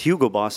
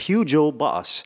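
First: The name is pronounced the standard way. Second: The name is pronounced in an altered way. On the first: It is simply the brand's name. "the real pronunciation of it" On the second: The speaker is the boss of the household. "but I said"

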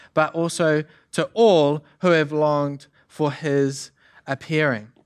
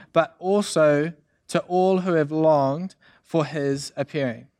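The two takes are said the same way.

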